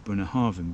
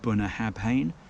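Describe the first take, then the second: First: The consonant is pronounced as a V. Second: The consonant is pronounced as a B. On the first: The speaker calls it right. "people say Bunnahabhain because the B and the H is together to create the V" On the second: The speaker calls it wrong. "that looks like Bunnahabhain"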